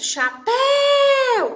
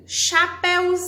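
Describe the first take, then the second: First: Chapéu with PÉU loud, high and stretched out; stress on PÉU. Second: Chapéuzinho with ZI loud, high and stretched out; stress on ZI. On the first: Teacher showing pupils the stressed syllable, PÉU stretched in Chapéu. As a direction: hold the second syllable of Chapéu long and loud. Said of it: "É a sílaba tônica". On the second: Teacher showing the stress has moved, long loud ZI in chapéuzinho. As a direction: hit and hold the ZI in chapéuzinho. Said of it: "vai ser o zinho". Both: Shown as a demonstration.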